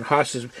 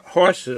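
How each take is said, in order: First: Horses said Boston style, hahses with the r dropped; Boston accent. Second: Horses said with a clear r, hor-ses; careful corrected horses. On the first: Real, not acted. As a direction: let the Boston r fall away in horses. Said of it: "I know my Boston accent". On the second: Shown as a demonstration. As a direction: fix the word horses and sound the r. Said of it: "I'll try to get that out of the horses".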